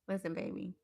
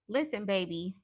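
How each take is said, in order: First: It is said in a soft, sincere tone. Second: It is said in a sassy, attitude-filled tone. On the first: The speaker calls it right. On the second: The speaker calls it wrong.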